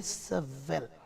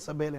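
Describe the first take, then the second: First: The name is said with a v sound. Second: The name is said with a b sound. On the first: This is the Hebrew form of the name. "எபிரேய பாஷையிலே உச்சரித்தால் எசவெல்" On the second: This is the Tamil form of the name. "தமிழிலே எசபேல் என்று சொல்லுவோம்"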